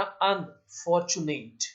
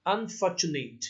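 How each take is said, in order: First: unfortunate slowly, with a gap after अन; split into parts. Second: Said in the usual way. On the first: Shown as a demonstration. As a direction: break unfortunate into अन and fortunate. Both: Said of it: "splitting syllable".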